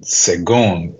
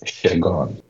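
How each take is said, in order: First: The name begins with an s sound. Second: The name begins with an sh sound. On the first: The speaker calls it wrong. "you said it as it's spelled" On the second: The speaker calls it right. "it's pronounced S-H-E"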